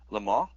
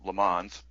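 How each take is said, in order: First: It is said with a French pronunciation. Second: It is said with an American pronunciation. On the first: "it's called" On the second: "or as us dumb Americans pronounce it"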